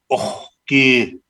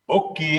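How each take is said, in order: First: The word is said with an extra accompanying sound. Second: The word is said with only its main sounds. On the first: It names the drink. "when we change the word with an inflection, which is this one, it now becomes oki" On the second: It is a greeting. "Oki, of course, means hello"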